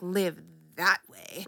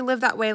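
First: It is said in a scornful, judging tone. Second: It is said in a plain, neutral tone. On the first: Living on little money is looked down on. The speaker calls it wrong. "like live that way. I don't mean it like that" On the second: Living on little money is fine. The speaker calls it right. "I don't say live that way"

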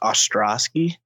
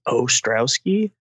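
First: The opening O is said plainly. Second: The opening O is drawn out and exaggerated.

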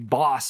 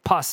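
First: The word begins with a voiced B sound. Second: The word begins with a voiceless P sound. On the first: The speaker calls it right. "four-letter word that he's trying to portray to me" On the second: The speaker calls it wrong. "and he thinks he's saying it right"

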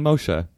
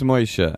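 First: The name is said with standard pronunciation. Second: The name is said with Yiddish pronunciation. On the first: The listener is not family. "if you are not my uncle, then Moshe" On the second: The listener is family. "If you're my uncle, it's Moshe"

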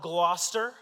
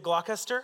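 First: The name is said the local, shortened way. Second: The name is read out fully as spelled.

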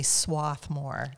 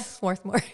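First: The R after the first vowel is dropped. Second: The R after the first vowel is pronounced. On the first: "I find it a little bit pretentious to say Swarthmore" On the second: "I kind of stick by the R"

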